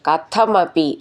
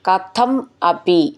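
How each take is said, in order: First: The two words are run together. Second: The two words are said separately.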